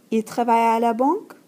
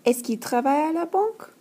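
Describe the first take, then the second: First: Banque rising at the end; yes-no question with a rise on banque; rising question tune. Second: Teacher model of est-ce qu'il question; careful French model sentence; est-ce que question. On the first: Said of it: "That question is asked using tone of voice". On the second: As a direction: clear est-ce que at the start, banque rising. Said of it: "There's also est-ce que". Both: Shown as a demonstration.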